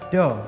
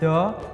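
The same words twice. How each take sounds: First: The d is made with the tongue tip behind teeth. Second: The d is made with the tongue tip between teeth. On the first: The speaker calls it wrong. "dan bukan do" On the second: The speaker calls it right. "Dengan ujung lidah yang sedikit tergigit, do diucapkan do"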